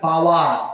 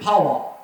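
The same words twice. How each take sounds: First: It is said with a Bengali accent. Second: It is said with a British accent. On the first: The speaker calls it wrong. "আপনি বলতেছেন পাওয়ার" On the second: The speaker calls it right. "এটা হচ্ছে পাওয়ার"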